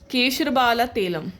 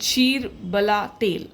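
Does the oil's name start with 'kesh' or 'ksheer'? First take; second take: kesh; ksheer. First: The name begins with the sound 'kesh'. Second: The name begins with the sound 'ksheer'. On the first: The speaker calls it wrong. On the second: The speaker calls it right.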